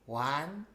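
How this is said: It is counted in a small childlike voice. "count to three as a very young child"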